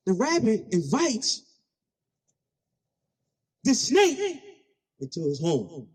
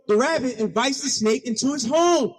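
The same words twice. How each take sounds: First: Long pauses before "the snake" and "into his home"; spaced out in three pieces, ending on a hushed "into his home"; dramatic pauses. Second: Said in the usual way. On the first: Real, not acted. Repeats it slowly for effect.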